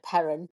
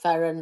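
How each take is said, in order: First: The word begins with a p sound. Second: The word begins with an f sound. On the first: "we grew up calling it perrin" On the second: "ferren is the correct way of saying it"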